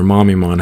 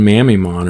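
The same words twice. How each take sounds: First: Mamimon with "Mam" sounded like "mom"; alternate pronunciation. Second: Mamimon with "Mam" as in "mammal"; alternate pronunciation. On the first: Correcting to another way to say the card name, Mamimon pronounced "mommy-mon". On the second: Offering one way to say the card name, Mamimon pronounced "MAM-ee-mon". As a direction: say Mamimon opening on a short-a "mam". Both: Shown as a demonstration. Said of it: "however that you say it".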